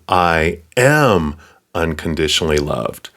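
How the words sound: The emphasis falls on the word am. It is true now, not in the past or future. "Not will be or were"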